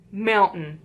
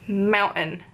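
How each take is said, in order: First: "mountain" as "moun-uhn" with no T, falling. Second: "Mountain" as "moun-uhn" with a stopped T. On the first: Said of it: "There's no need for a T". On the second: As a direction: drop the T in "Mountain". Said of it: "We don't add the T". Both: Shown as a demonstration.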